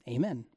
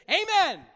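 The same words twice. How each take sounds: First: Said in the usual way. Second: Higher, lifted Amen; "Amen." sung out high and bright; excited amen. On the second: Shown as a demonstration. Preacher urging the congregation, excited Amen. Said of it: "how about this?".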